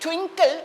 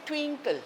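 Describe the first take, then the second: First: The first vowel is a short i sound. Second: The first vowel is a long ee sound. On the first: The speaker calls it right. "instead of saying twinkle" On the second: The speaker calls it wrong. "we say twinkle"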